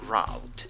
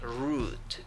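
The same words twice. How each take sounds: First: The vowel is an 'ow' sound. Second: The vowel is a long 'oo' sound. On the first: "but you can also say route" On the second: "you only have a long U, so you say route"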